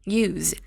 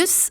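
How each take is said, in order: First: The word ends with a buzzing z sound. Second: The word ends with a hissing s sound. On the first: The word is a verb. "동사로 쓰일 때는 Z 발음을 해요" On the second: The word is a noun. "S 발음으로 읽었어요"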